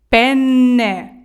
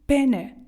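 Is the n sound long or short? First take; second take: long; short. First: The n sound is held long. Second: The n sound is short. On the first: It names the pasta. The speaker calls it right. "А як правильно? ... Никайте довго" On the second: It names a male body part. The speaker calls it wrong. "Якщо вимовити це з одною буквою «н»"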